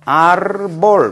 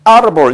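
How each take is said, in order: First: The stress is on the last syllable. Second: The stress is on the first syllable. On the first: The speaker calls it wrong. "규칙은 자음으로 끄니까 마지막 음절이죠" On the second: The speaker calls it right. "불규칙하게 여기에 강세가 오는 경우"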